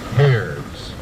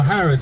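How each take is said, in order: First: The name is said in an American accent. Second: The name is said in an English accent. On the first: "as my friends from the United States like to call it" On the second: "as we say in England"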